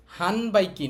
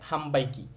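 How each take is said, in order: First: হানবাইকি said with a plain n, the wrong way; wrong n sound. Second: হামবাইকি with an m sound before বা. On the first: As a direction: say হানবাইকি with an n before বা, as the mistake. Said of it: "হানবাইকি না". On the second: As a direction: say হামবাইকি, turning the n into m. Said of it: "আমাদের উচ্চারণ হবে হামবাইকি". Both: Shown as a demonstration.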